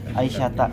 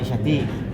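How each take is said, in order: First: The name ends with an a vowel. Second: The name ends with an i vowel. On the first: The speaker calls it right. "Kalau ini an Aisyah Aisyata" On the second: The speaker calls it wrong. "Kan kita inginnya an Aisyati. Tapi ada yang menghalanginya"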